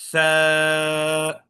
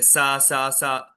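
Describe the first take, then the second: First: It is said with the tongue tip out, like th. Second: It is said with the tongue inside, like s. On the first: The speaker calls it right. "जबान की नोक थोड़ी सी बाहर होनी चाहिए" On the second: The speaker calls it wrong. "वो जबान अंदर रख के पढ़ते थे"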